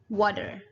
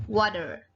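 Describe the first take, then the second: First: It is said in an American accent. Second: It is said in an American accent.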